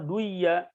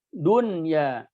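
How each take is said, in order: First: The n sound is dropped and merged into y. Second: The n sound is clearly kept before y. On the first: The speaker calls it wrong. "tidak dibaca siwan atau duya" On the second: The speaker calls it right. "tidak diidghamkan"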